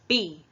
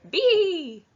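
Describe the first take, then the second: First: It is said in a normal voice. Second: It is said in a silly voice.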